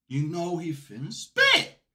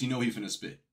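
First: Slow, drawn-out hype voice with rising end; hype drawl. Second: Said in the usual way. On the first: Shown as a demonstration. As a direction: stretch it out like a hype man.

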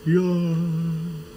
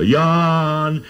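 First: Mountain echo. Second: Long high call across a valley. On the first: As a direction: let the name float back like a far-off echo. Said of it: "the voice will come back". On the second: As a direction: hold the name out high and loud, like calling into the mountains. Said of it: "so you can call". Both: Shown as a demonstration.

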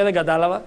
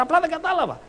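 First: Low-key, polite admission of confusion; apologetic pupil. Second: Higher-pitched mock exasperation; exasperated pupil. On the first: Retold or imitated. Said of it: "λέει, «Συγγνώμη, κύριε". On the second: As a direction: plead like a pupil still lost on the third try. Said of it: "Η δασκάλα το λέει τρίτη φορά".

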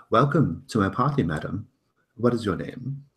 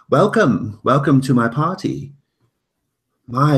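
First: Lightly voiced host, brighter pitch; singsong welcome. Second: Loud, high singsong host greeting; booming sing song welcome. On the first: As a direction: greet her with polite flourish. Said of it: "he says". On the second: Acted. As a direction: boom out a grand welcome to guests. Host greets guests at party.

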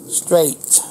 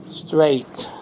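No difference in how they are said.

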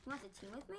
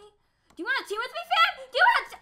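First: Said in the usual way. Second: Very high, loud plea; frantic yelling. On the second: Real, not acted. Gamer begging an opponent to team up, frantic yell. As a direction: shout the offer in a rising panic. Repeats team offer in panic.

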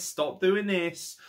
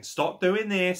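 First: "Stop doing this" spelled out very slowly, each word weighted; slow drawn-out repeat. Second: Said in the usual way. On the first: Real, not acted.

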